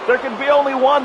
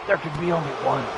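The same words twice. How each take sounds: First: It is said in a plain, ordinary speaking voice. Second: It is said in a put-on, character-imitating voice.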